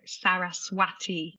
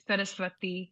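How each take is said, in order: First: The middle w sounds like an English w. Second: The middle w does not sound like English w. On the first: The speaker calls it wrong. "because it's got a W in it, so it's sometimes you hear it as like Saraswati" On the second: The speaker calls it right. "so it's Saraswati"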